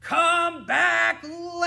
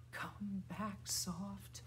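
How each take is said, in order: First: High, full-out holler; loud. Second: Hushed little call; soft. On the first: Teacher calling the bird named Loud back, shouting. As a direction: shout it with a long last word. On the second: Teacher calling the bird named Soft back, softly. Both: Shown as a demonstration.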